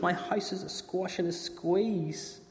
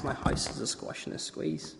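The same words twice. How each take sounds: First: Put-on high, slow despairing old woman; slow lament. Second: Soft whispered tired refrain; whispering. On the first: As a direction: draw it out in despair. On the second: Acted. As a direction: whisper it, worn out. Whispered repeat.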